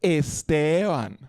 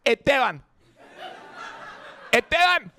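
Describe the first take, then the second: First: Esteban slow and lilting, Colombian style; Colombian pronunciation. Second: Esteban high and quick, first s dropped; Puerto Rican pronunciation. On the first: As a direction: draw out Esteban like Colombian parents. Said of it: "My parents go". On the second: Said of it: "And I say my name". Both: Retold or imitated.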